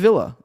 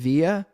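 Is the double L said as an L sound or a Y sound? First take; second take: L sound; Y sound. First: The double L is said as an L sound. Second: The double L is said as a Y sound. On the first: The speaker calls it right. "but apparently it's Villa" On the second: The speaker calls it wrong. "I've been pronouncing that Via because ... two L's and it's ... typically used in like Latin language"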